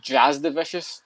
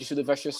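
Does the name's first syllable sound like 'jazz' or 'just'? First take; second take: jazz; just. First: The first syllable sounds like 'jazz'. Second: The first syllable sounds like 'just'. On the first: "they pronounce it as Jazz the Vicious, so there's no U" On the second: "other times I have heard them say Just the Vicious"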